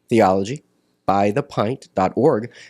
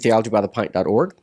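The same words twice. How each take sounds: First: The address is said slowly. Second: The address is said quickly.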